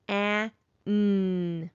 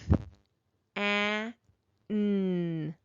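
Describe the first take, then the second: First: The sounds are said faster. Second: The sounds are said slowly.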